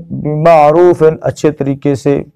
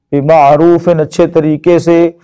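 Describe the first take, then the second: No difference in how they are said.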